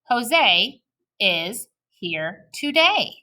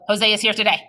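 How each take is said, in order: First: The sentence has a short breath pause. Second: The sentence runs on without a breath. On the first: The speaker calls it right. "We want to say" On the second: The speaker calls it wrong. "we don't want to go"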